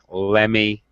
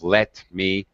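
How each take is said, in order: First: The words blend into a reduced 'lemme'. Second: Both words are said fully and separately. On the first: "It's okay to use reduction" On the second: "instead of"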